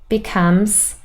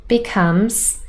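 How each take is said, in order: No difference in how they are said.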